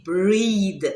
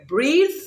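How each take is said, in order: First: "breathe" as breed, drawn out; Creolese pronunciation. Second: Said in the usual way. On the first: Shown as a demonstration. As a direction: say "breathe" slowly with a final D. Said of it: "we say breathe". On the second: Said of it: "The word breathe".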